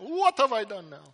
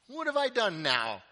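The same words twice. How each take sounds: First: It is said in a put-on Italian accent. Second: It is said in the speaker's ordinary accent.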